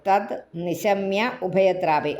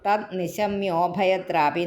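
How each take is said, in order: First: The words are said separately, with breaks between. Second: The words are run together into one stretch.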